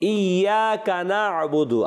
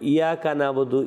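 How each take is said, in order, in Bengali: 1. y ধ্বনিটি লম্বা করে দ্বিত্ব করে পড়া হয়। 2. y ধ্বনিটি ছোট আর একক। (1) "আমরা তোমারই ইবাদত করি" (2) "ইয়া মানে হে"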